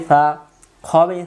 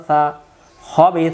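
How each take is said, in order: Both takes have the same delivery.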